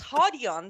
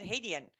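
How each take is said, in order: First: The name is said in its original form. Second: The name is said in a simplified form. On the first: This is how the name is properly said. The speaker calls it right. "the correct pronunciation" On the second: This is the version the owner settled for. The speaker calls it wrong. "has made the ultimate sacrifice to make it"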